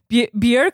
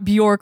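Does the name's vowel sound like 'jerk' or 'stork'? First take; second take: jerk; stork. First: The vowel sounds like the one in 'jerk'. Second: The vowel sounds like the one in 'stork'. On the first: The speaker calls it right. "Bjerk like jerk" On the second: The speaker calls it wrong. "not Bjork like stork"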